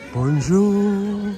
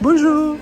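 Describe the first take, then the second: First: The greeting is said at a low pitch. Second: The greeting is said at a high pitch. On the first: The situation is serious or somber. "Rather than going high, you go low" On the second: The mood is cheerful. "Not so much"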